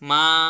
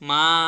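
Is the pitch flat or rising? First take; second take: rising; rising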